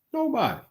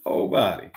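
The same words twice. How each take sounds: First: High, falling "Nobody"; high-pitched answer. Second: Low "Nobody"; low-pitched repeat. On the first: Speaker answers his own question about the Bible, high-pitched. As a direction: squeak out "Nobody" high, then drop. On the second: Speaker repeats his answer about the Bible, low and final. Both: Real, not acted.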